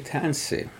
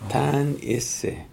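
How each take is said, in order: First: The vowel between the consonants is dropped. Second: Every consonant is followed by a full vowel. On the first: This is the shortened everyday way of speaking. "when I say Tansi" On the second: This is the old, formal way of speaking. "our people say Tanise"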